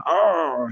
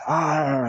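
First: Bigger pirate "Arr!" shout, much higher and louder; pirate growl. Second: Short pirate-style "Arr!" cry, higher and louder; a yell that comes out like a pirate's "Arr"; pirate growl. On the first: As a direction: try it again and it's still a pirate's "Arr". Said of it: "No, still sounding like a pirate". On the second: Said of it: "not at all sounding like a pirate". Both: Shown as a demonstration.

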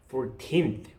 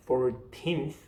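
The two takes are said the same way.

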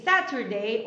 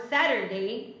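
First: Saturday with a crisp t; one pronunciation of Saturday. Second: Saturday with a softened, tapped t; other pronunciation of Saturday. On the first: Teacher offering two options, Saturday with a clear t. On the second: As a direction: tap the t lightly in Saturday. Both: Shown as a demonstration. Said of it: "You can say Saturday or Saturday".

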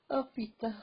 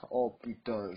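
First: Much higher "Oh putain"; squeaky dismayed "Oh putain"; high character voice. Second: Said in the usual way. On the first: Acted. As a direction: pitch "Oh putain" way up, falling off the oh. Second character reacts, high.

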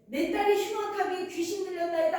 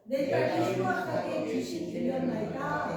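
First: Higher-pitched mock cry for help; retold crying out. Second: Scripture reading. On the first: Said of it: "하고 막 소리를 지르는 거예요". (부르짖는 흉내) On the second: Real, not acted. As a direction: read it evenly, as in unison. Congregation reads the verse together. (성경 봉독하듯)

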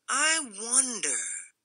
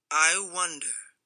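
First: Slow musing Rufus. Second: Grunted wonder. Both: A narrator's reading. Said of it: "grunted Rufus".

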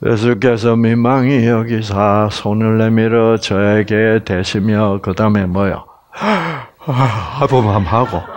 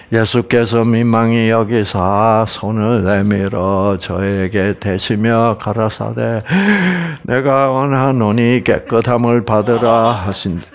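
First: Yawning reading. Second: Flat dutiful reading. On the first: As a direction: read as if half asleep, then yawn. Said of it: "사람들이 성경을 이렇게 읽고 있어요". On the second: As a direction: read the verse dry and unmoved, no feeling. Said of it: "이렇게 읽지 마시기를 바랍니다". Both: Shown as a demonstration.

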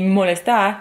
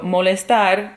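First: "molestar" pronunciado a la brasileña; pronunciación portuguesa. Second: "molestar" pronunciado a la española; pronunciación española. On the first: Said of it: "en portugués significa". ("molestar" con acento portugués brasileño) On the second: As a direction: di "molestar" como palabra en español. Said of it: "en español significa". ("molestar" con pronunciación española) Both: Shown as a demonstration.

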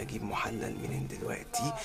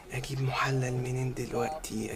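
First: Softer, breathy repeat; softer whisper. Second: Slow whisper to himself; whispered worry. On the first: Husband repeating the worry in a hushed whisper. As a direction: say it again, fading away. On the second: Husband wondering where to find a stand-in husband, whispered. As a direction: whisper it anxiously. Panicked thinking aloud. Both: Acted.

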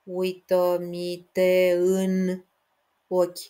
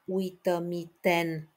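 First: „te în” split into two slow syllables; wrong split. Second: „uită-mi ten” with ten as one syllable; correct split. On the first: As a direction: pull „te în” apart as two beats, the mistake to avoid. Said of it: "Să nu cumva să despărțiți". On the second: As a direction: keep „ten” a single beat. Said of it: "Aveți grijă aici la". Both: Shown as a demonstration.

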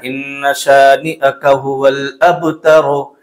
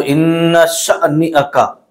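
First: इन्न शानिअका said evenly and slowly, no jolt; smooth recitation. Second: इन्न शानिअका with a sudden jolt on इन्न; jerky wrong recitation. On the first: Teacher models smooth even recitation for students. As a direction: glide through इन्न शानिअका without any jerk. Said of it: "बल्कि झटका नहीं देना". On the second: Teacher shows students the common jolt on इन्न शानिअका. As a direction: imitate the mistake, jerking the start of इन्न. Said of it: "बहुत सारे लोग इसमें झटका देते हैं". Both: Shown as a demonstration.

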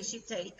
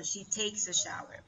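First: Said in the usual way. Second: "takes" stressed as the corrected verb. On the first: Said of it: "No podemos decir". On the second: Shown as a demonstration. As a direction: model the correction, landing on "takes".

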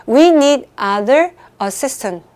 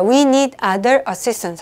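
First: "We need other assistant" read very slowly, WE louder; slow, deliberate quiz reading. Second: "we need other assistant" read slowly once more; slow, steady repeat. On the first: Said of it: "아무 말도 안 하고 갈게요". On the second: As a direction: repeat the quiz sentence slowly for the count. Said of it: "삼 초만 드릴게요". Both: Shown as a demonstration.

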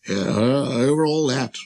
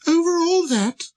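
First: Casual royal confirmation, close to speaking pitch; assured king. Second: Very high, marvelling question; incredulous little prince. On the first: King answering the astonished prince, calmly self-important. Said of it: "the king answered". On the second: Prince marvelling at the king's domain, very high and amazed. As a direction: ask it in a tiny astonished voice. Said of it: "asked the little prince". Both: Acted.

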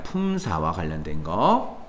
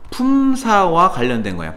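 First: 품사와 관련된 거 echoed much lower, softer and slower; soft repeat. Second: Said in the usual way. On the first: Shown as a demonstration. Teacher quietly echoing the point to let it sink in. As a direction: murmur 품사와 관련된 거 again quietly, as if to yourself. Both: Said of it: "teacher states then repeats the point".

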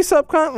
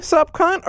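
First: "sup, cunt?" said as a statement, no question lift; telling tune. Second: "sup, cunt?" said as a question, voice rising on "cunt"; asking tune. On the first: Reading the letter aloud to viewers, greeting as a statement. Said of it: "Are you telling me". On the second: Reading the letter aloud to viewers, rising question tune. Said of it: "Are you asking me". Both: Shown as a demonstration.

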